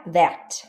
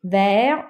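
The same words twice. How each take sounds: First: Verte with a clear final T; T sounded. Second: Vert said with no T at the end; silent T. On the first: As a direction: end verte on a crisp T. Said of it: "but you say the T". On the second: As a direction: stop Vert before the T. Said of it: "You don't say the E". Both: Shown as a demonstration. Teacher contrasting masculine and feminine forms.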